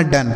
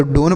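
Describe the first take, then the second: First: डन with a short 'uh' vowel; correct reading. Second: डोन with a long 'o' vowel; wrong reading. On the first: Teacher giving students the right reading, डन with short 'uh'. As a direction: say डन with a short, lower-pitched uh. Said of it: "डन पढ़ेंगे". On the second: Teacher telling students what to avoid, डोन with long 'o'. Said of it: "ना तो डोन पढ़ना". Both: Shown as a demonstration.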